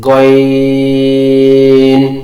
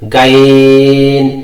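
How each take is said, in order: First: The letter name is said full and heavy. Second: The letter name is said thin and light. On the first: The speaker calls it right. "এটা পুর হবে, মোটা হবে" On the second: The speaker calls it wrong. "অনেকে উচ্চারণ করে এভাবে গাইন, গাইন হবে না"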